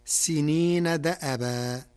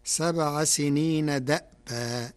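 First: "دأبا" with the open hamza "دَأَبا", recited slowly; Hafs reading. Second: "دأبا" with silent hamza, said "دأْبا" glided almost to "دابا"; Warsh reading. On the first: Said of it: "قرأ ورش كلمة دأبا بإسكان الهمز". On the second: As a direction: recite "سبع سنين دأبا" with the hamza stilled. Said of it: "فتصير". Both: Shown as a demonstration.

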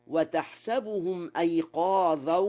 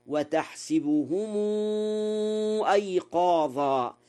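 First: وتحسبهم as "watahsabuhum", plainly joined to أيقاظا; fatha on the sin. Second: وتحسبهم as "watahsibuhumuu", final vowel held long into أيقاظا; kasra on the sin. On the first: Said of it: "بفتح السين لغة تميم". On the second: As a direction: give وتحسبهم an i after sin and draw out its ending. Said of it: "بكسر السين". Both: Shown as a demonstration.

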